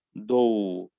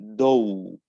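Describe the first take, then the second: Both takes have the same delivery.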